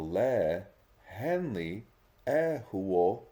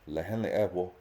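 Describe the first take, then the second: First: It is slow with exaggerated, lively changes in pitch. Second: It is quick with little change in pitch. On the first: It is made exciting for beginning learners. "change the pitch in my voice" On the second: It is how a fluent speaker would ask it. "quick, fast, without all of the intonation"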